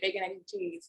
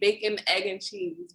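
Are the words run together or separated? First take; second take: run together; separated. First: The words are run together as one word. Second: The words are said separately and clearly. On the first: This is how people from the speaker's neighborhood say it. "we pronounce it as one word" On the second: This is how most people say it. "a lot of people say"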